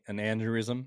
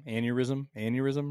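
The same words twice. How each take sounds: First: Aneurysm fumbled as "AN-der-ism", with a D; unsure pronunciation. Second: Aneurysm as "AN-yer-ism", no D; corrected pronunciation. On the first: Trying out a word he is unsure of, aneurysm garbled as "anderism". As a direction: stumble on aneurysm, putting a D in the middle. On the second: Checking the word with his co-host, aneurysm said as "AN-yer-ism". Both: Real, not acted. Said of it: "Is that the word?".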